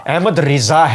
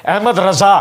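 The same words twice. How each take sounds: First: رضا with a short i after the r, "Riza"; corrected vowel, Riza. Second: رضا with a short a after the r, "Raza"; wrong vowel, Raza. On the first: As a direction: slowly say Ahmad رضا as "Ahmad Ri-za". (رضا کو را کے نیچے زیر سے "رِضا" کہیں) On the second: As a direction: say Ahmad رضا as "Ahmad Ra-za". (رضا کو را پر زبر سے "رَضا" کہیں) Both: Retold or imitated. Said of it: "یہ مولوی غلط پڑھتے ہیں".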